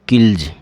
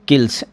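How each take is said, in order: First: The word ends with a voiced z sound. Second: The word ends with a voiceless s sound. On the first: The speaker calls it right. "वो आपका ज होगा। तो ये क्या हो जाएगा, किल्ज" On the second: The speaker calls it wrong. "किल्स ऐसे नहीं बोलना है आपको, गलत बोल रहे हो आप।"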